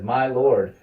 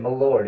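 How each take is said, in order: First: It is said the noble's way, with full 'my'. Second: It is said the commoner's way, reduced: m'lord.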